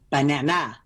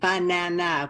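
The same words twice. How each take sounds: First: One syllable gets shifted, unusual stress. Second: All syllables get equal, even stress. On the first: "they might actually change the stress in the word" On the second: "they might keep the stress the same, ... which would sound um, more robotic"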